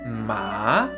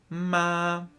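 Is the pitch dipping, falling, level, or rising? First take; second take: dipping; level. First: The pitch dips down and then rises. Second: The pitch stays level and flat throughout. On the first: "El tercer tono tiene una bajada y una subida" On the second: "El primer tono es plano, totalmente, eh, digamos, recto. No hay cambios en él"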